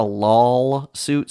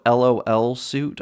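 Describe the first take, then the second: First: "lol" said as one syllable; lol as a word. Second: "L O L" said letter by letter; name each letter of "L O L" separately; spelled-out letters. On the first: Host naming a doomed lawsuit, "lol" as one word. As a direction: say "lol" as a single word, not as letters. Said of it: "who called this a lol suit". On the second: Host explaining the joke name, "L O L" spelled out. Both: Shown as a demonstration.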